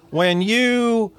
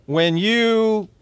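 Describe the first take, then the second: First: "you" lifted high and leaned on; rising emphasis on "you"; stress on when you. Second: "you" lifted high and held; emphatic "you"; stress on when you. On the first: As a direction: push up on "you". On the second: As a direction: lean hard on "you" up high. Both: Shown as a demonstration.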